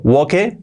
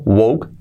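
First: Woke read as Spanish "wo-ke", final e sounded; spelling pronunciation. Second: "woke" as one syllable, "wouk", silent final e; English pronunciation. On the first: Teacher showing how "woke" is written, spelling pronunciation. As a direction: say "woke" in two syllables, WO-keh. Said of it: "escrito woke". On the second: Teacher showing how "woke" is pronounced, English pronunciation. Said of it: "pronunciado woke". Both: Shown as a demonstration.

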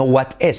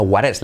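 First: "what is" with a hard T and a clear I; "what is" said as written, crisp T; wrong take. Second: "what is" as "waɾ es", tapped R for T, I like E; soft R for T. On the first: Teacher showing the wrong way to say "what is". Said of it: "No what is, sino what is". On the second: Teacher modelling "what is" to the class. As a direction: flap the T in "what is" and say the I as E. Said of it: "sino what is". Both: Shown as a demonstration.

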